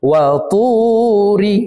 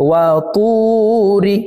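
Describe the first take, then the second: No difference in how they are said.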